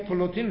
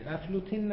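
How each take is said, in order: First: The name starts directly with the f sound. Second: The name starts with an added short a vowel. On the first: The speaker calls it right. "یعنی فلوتین رو میگی دیگه" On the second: The speaker calls it wrong. "افلوتین نگو. این الفش زایده"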